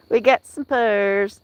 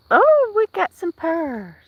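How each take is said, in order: First: Said in the usual way. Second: High, slow delighted exclamation. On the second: Real, not acted. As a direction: marvel at the purring cat. Delighted at the cat purring.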